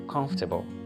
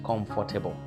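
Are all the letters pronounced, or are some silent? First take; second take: some silent; all pronounced. First: Some letters are silent and the word is shortened. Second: Every letter is pronounced in full. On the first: The speaker calls it right. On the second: The speaker calls it wrong. "not comfortable"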